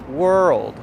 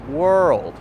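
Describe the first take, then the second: The two takes are said the same way.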